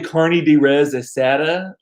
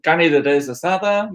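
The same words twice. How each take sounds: First: It is said with an English accent. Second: It is said with a Spanish accent. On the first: The speaker calls it wrong. "that just that sounds ridiculous to me" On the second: The speaker calls it right. "That's how you say it"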